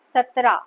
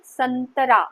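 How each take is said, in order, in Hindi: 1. 't' से पहले कोई नासिक्य ध्वनि नहीं है। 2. 't' से पहले एक नासिक्य ध्वनि आती है। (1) "सतरा नहीं होता" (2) "संतरा बोलते हैं"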